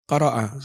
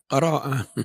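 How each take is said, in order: First: The first syllable is pressed with no lengthening. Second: The first syllable is unpressed and a vowel lengthens. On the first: The speaker calls it right. "huruf awal ditekan" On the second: The speaker calls it wrong. "enggak menekan huruf pertama, mesti muncul tawallud"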